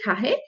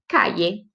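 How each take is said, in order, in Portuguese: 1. A consoante do meio é um som suave, parecido com R. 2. A consoante do meio é um som parecido com Y. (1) "como se fosse um R, mas não tão forte" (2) "Como se fosse um I"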